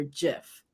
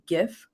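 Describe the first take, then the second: First: GIF with a soft G; GIF pronounced with a J sound. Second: GIF with a hard G; GIF starting on a hard g sound. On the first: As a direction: say GIF starting like "jam". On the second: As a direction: say GIF with the G of "gift". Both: Shown as a demonstration. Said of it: "how do you say the word".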